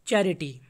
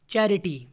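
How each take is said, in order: Both takes have the same delivery.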